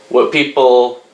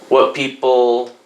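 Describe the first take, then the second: Both takes have the same delivery.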